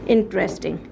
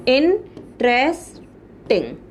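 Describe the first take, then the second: First: Said in the usual way. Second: interesting slowly split, long pauses between the parts; slow, separated beats in interesting; broken into syllables. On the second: Shown as a demonstration. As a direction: sound out interesting piece by piece, very slowly. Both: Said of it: "इनको break करके".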